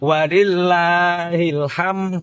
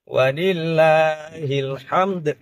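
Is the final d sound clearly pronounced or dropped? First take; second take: dropped; pronounced. First: The final d sound is dropped entirely. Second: The final d sound is clearly pronounced. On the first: The speaker calls it wrong. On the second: The speaker calls it right. "dal yang ditakdirkan makhrajnya, tapi makhrajnya harus sempurna"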